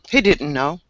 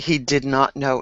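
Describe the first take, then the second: First: It is said with the contraction didn't. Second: It is said with did not in full. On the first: The speech is casual. "this is very casual" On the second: The speech is formal. "These are more formal"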